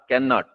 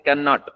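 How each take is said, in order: No difference in how they are said.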